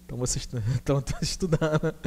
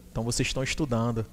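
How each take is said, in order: First: Words broken by a real laugh; laughing through it. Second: Said in the usual way. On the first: Real, not acted. Teacher teasing students while laughing. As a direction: laugh while you repeat the joke.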